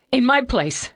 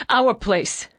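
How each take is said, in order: First: "my" hit hard through sobs; high crying voice leaning on "my"; crying, pressing "my"; stress on my. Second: "our" corrected with weight, sobbing; tearful correction stressing "our". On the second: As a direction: lean on "our" as the fix. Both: Acted. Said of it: "between sobs and shakes".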